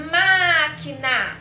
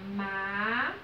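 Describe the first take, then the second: First: Loud, drawn-out MÁQUINA with MÁ held long; calling a neighbour. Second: MÁQUINA broken up with long pauses, MÁ... QUI... NA; low, held syllables of MÁQUINA, one at a time. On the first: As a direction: call out MÁQUINA slowly, stress on the first syllable. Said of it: "como se a gente estivesse chamando o vizinho". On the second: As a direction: slowly separate the three syllables of MÁQUINA. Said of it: "Qual foi a sílaba mais forte?". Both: Shown as a demonstration.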